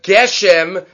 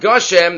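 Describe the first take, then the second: First: The first vowel sounds like 'e'. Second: The first vowel sounds like 'o'. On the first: The word starts a new phrase and ends nothing before it. The speaker calls it right. "you would say Geshem and not Goshem" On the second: The word ends the phrase before a break. The speaker calls it wrong. "not Goshem"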